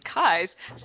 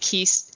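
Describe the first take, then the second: First: The vowel sounds like the vowel in 'eye'. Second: The vowel sounds like the vowel in 'key'. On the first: The speaker calls it right. "is his name is Kyze?" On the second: The speaker calls it wrong. "I've been pronouncing it wrong all this time"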